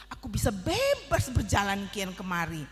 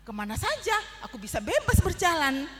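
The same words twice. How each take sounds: First: A proud ant leaning on bebas; story ant boasting to the cocoon, stressing bebas; boastful, stress on bebas. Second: Ant bragging again, louder and higher on bebas; louder boast, bebas punched. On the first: Ant boasts of his freedom. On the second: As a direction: push bebas harder the second time. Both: Acted.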